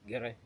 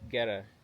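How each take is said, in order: First: It is said in the speaker's own accent. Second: It is said in an American accent.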